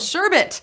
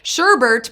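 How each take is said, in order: First: The second syllable has no R sound. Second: The second syllable has an R sound. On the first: The speaker calls it right. "but there's no R. It's sherbet" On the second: The speaker calls it wrong. "Sherbert is how I say it"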